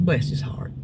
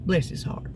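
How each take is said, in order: First: Said in the usual way. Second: Whispered. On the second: Real, not acted. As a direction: whisper "Bless his heart" with no voice. Fond remark, said twice.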